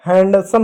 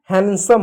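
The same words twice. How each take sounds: First: हैंडसम with the d sounded; D pronounced. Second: हैंडसम as han-sum; silent D. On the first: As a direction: keep the D in हैंडसम. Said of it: "नहीं होता है". (डी बोलकर "हैंडसम") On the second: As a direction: leave the d out of हैंडसम. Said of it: "silent हो गया". (डी silent रखकर "हैंडसम") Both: Shown as a demonstration.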